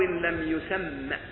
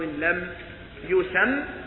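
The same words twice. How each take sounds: First: The last word ends with a short a vowel. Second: The last word ends on a consonant, no vowel. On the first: "فلو نطق بها دون تسكين لقال ومبهم ما فيه راو لم يسم، أي بالفتحة فقط" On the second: "حذف الفتحة لأنه اعتبر هذا آخر البيت وقد وقف"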